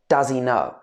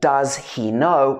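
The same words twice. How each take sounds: First: The words run together in one smooth chunk. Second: Each word is said separately and distinctly. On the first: The speaker calls it right. "All these three words basically connect together" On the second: The speaker calls it wrong. "instead of saying"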